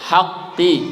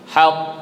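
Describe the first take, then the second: First: The word ends with a short i vowel. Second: The word ends with a bouncing consonant. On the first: The word is read in full, not at a stop. "Baca lengkap" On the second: The reader stops at this word.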